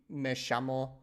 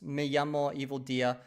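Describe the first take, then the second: First: It is said in an Argentinian Spanish accent. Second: It is said in a Spanish accent from Spain.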